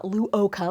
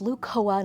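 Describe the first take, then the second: First: The name is said as Lu-o-ka. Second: The name is said as Lu-co-a. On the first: The speaker calls it wrong. "not Luoka" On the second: The speaker calls it right. "it's pronounced Lucoa"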